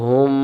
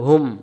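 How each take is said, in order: First: The final m sound is held long. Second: The final m sound is cut short. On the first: The m carries a shadda. "তখন তাসদিদওয়ালা হলো" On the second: The m carries a sukun. "এই সাকিন হলো"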